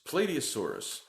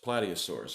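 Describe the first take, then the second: First: The first part sounds like the word plate. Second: The first part does not sound like plate. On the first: The speaker calls it wrong. "I pronounced incorrectly... P L A T E like plate" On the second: The speaker calls it right. "It's Plateosaurus"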